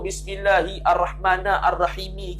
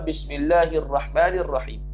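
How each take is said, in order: First: The phrase ends with an added final i vowel. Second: The phrase ends stopping on the m sound. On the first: The speaker calls it wrong. "qiraat tujuh tu tak baca langsung" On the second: The speaker calls it right. "tapi dia baca"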